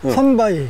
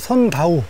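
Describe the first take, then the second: First: The final syllable ends in a wi sound. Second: The final syllable ends in a plain u sound. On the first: This is the standard language name. "우리말로" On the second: This is the local dialect name. "여기 사투리로"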